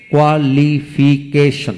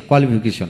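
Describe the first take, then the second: First: qualification slowly split into every syllable; a gap after each syllable of qualification. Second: Said in the usual way. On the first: Shown as a demonstration. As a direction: sound out qualification beat by beat. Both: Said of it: "যে word তিনের অধিক syllable থাকে".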